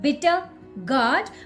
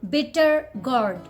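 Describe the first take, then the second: First: The R sounds are silent. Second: The R sounds are pronounced. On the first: "So if you're working on your Indian pronunciation, call it bitter gourd" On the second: "American pronunciation, then you can pronounce last and mid R"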